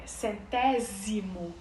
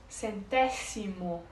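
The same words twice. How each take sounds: First: The middle consonant is a buzzing z sound. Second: The middle consonant is a hissing s sound. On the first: This is the Portuguese pronunciation. "como a gente fala em português, com esse Z" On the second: This is the Spanish pronunciation. "como se fosse escrito com C"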